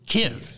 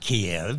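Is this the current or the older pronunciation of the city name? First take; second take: current; older. First: The city name has its current pronunciation. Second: The city name has its older pronunciation. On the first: This is how the name is said today. The speaker calls it right. "it's Kiev" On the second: This is how the name used to be said. The speaker calls it wrong. "It's not Kiev"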